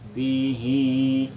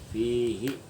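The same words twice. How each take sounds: First: The final vowel is drawn out long. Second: The final vowel is short and quick. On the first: This is the exception in this verse. "Tapi di sini panjang" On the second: This is the usual reading. "Biasanya fihi itu fihi cepat"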